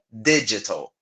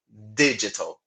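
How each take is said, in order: The two takes are said the same way.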